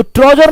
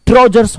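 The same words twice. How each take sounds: First: ट्राउजर said without the final s, as the wrong form; wrong singular form. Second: ट्राउजर्स with a clear final s; correct plural form. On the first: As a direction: say ट्राउजर, stopping on r with no s. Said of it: "ट्राउजर नहीं होता है". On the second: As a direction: end ट्राउजर्स firmly on the s sound. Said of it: "ट्राउजर्स होता है". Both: Shown as a demonstration.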